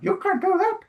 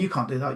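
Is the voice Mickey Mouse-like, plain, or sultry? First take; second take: Mickey Mouse; plain. First: It is said in a squeaky Mickey Mouse voice. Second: It is said in a plain own voice.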